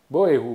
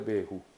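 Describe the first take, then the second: First: The first two syllables are said separately. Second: The first two syllables merge into one. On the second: "但念较紧的变作无会，无会，变作未"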